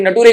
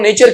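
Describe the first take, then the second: First: It is said with a t sound in the middle. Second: It is said with a ch sound in the middle.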